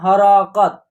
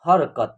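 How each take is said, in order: First: Each consonant carries a full a vowel, three syllables. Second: The r is half, giving two syllables har-kat. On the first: The speaker calls it wrong. "ह में भी अ की sound लिया रहे हैं और र में भी अ की साउंड... गलत हो जाएगा" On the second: The speaker calls it right. "आपको इसको उच्चारण करना है हरकत"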